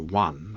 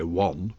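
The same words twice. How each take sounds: First: It is said in a posh southern English accent. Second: It is said in a northern English accent. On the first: This is the upper-class way he was mocked for lacking. "couldn't say one" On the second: This is his own regional way of speaking. "I could only say one"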